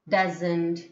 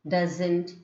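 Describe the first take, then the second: Both takes have the same delivery.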